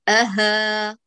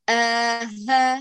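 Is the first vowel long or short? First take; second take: short; long. First: The first vowel after the glottal stop is short. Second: The first vowel after the glottal stop is long. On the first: The speaker calls it right. "الهمزة أقصر فلا تساوي الهاء المجاورة" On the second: The speaker calls it wrong. "ليس آها"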